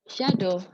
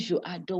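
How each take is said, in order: First: Je and adore are joined into one word. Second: Je and adore are said separately with a break. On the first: The speaker calls it right. "Don't break it, please" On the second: The speaker calls it wrong. "When you do that break, it's very bad"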